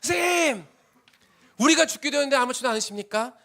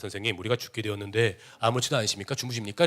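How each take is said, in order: First: It is cried out in desperate anguish. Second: It is said in a calm, composed way.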